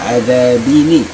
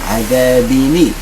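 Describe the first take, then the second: Both takes have the same delivery.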